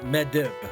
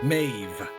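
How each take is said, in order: First: The name is said with separate D and B sounds. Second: The name is said with a single V sound. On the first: The speaker calls it wrong. "that's a D, a B, right? That's not Medib" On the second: The speaker calls it right. "It says pronounce it as a V"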